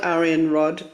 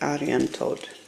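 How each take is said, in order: First: The name ends with a plain 'rod' sound. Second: The name ends with a sound like 'toad'. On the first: This is how the name reads from its spelling. "it's spelled Aryan Rod" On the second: This is the pronunciation found online. "the way you pronounce it apparently is Aryan Toad"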